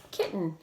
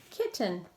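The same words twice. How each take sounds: First: Said in the usual way. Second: "Kitten" divided between the T's, kit, ten; split into syllables. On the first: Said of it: "where to break it apart". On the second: Shown as a demonstration. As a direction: sound out both halves of "Kitten". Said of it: "Between the T's".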